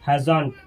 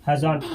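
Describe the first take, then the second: The two takes are said the same way.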